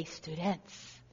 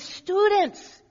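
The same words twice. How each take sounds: First: Low, soft "Students"; hushed call to students. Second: High, loud call of "Students"; "Students" called out high and ringing, like a professor grabbing the room. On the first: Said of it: "Then he'd say". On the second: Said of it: "he would speak with a French accent". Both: Retold or imitated.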